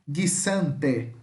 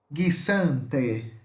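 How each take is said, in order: No difference in how they are said.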